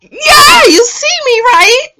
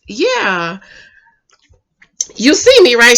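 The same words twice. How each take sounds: First: Very high, loud mock squeal; gushing imitation. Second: Imitated coy reply. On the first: Retelling her answer to his proposal, hammed-up high squeal. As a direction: squeal it as an over-delighted woman. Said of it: "She's just like". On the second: Retelling her answer to his proposal, mildly coy imitation. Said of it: "And she says".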